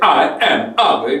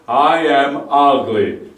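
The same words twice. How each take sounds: First: The vowels begin with a hard, explosive attack. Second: The vowels begin with a soft, gentle attack. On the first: The speaker calls it wrong. "You don't say" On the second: The speaker calls it right. "but what I say, ... that will be easier for your vocal folds"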